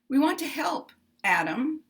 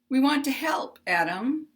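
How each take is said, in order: The two takes are said the same way.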